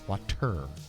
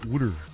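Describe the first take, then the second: First: Said in an English accent, with a crisp t. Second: Said in a Philadelphia accent, sounding like wooder. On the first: "in England, they have water because there's a T" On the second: "Or in Philadelphia"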